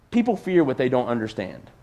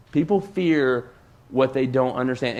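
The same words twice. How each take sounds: First: Said in the usual way. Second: "People fear" slow, a pause, then "what they don't understand"; slow it down and let it land; slow emphatic repeat. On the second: Shown as a demonstration.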